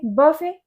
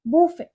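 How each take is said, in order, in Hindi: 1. इसके अंत में t नहीं है, जैसे buff-ay। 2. यह boo से शुरू होता है और इसके अंत में t नहीं है। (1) "इसे हम या तो बफे बोलेंगे" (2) "या हम बोलेंगे बूफे"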